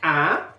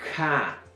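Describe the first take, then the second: First: The k is made with a glottal catch. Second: The k is followed by a puff of breath. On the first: "al final tenemos el glotalizado"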